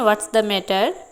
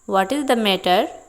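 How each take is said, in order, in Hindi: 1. 'what is' को छोटा करके 'what's' बोला जाता है। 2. 'what is' पूरा बोला जाता है।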